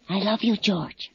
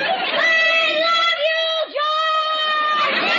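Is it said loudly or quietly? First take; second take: quietly; loudly. First: It is said quietly. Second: It is said loudly.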